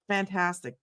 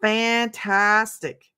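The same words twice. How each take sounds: First: Said in the usual way. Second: Fantastic stretched very slowly, each syllable savored; drawn out. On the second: Shown as a demonstration. Host repeats her favorite word, drawn out slowly. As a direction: draw out Fantastic like a signature word. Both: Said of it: "Does anybody say that besides me?".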